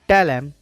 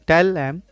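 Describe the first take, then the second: The two takes are said the same way.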